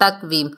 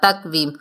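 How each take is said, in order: First: The q sound bounces with an echoing release. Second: The q sound bounces with an echoing release.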